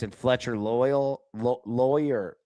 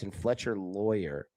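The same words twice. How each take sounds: First: "Loyal" and "Lawyer" stumbled out slowly, the name not known; a tentative, halting try at "Fletcher Loyal"; fumbled name. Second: "Loyer" said slowly and carefully as LOY-er; the name set right, "Loyer" with a full second syllable; corrected name. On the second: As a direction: settle on "Fletcher Loyer" at last. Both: Real, not acted. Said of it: "Sorry, I couldn't pronounce it".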